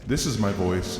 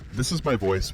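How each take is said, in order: First: The voice has a reverb effect on it. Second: The voice has a phaser effect on it. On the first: "with reverb" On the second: "with a phaser"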